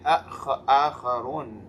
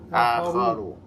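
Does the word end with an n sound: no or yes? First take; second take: yes; no. First: The word ends with an added n sound. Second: The word ends on a vowel, no n. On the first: The speaker calls it wrong. "We never say" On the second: The speaker calls it right. "We say"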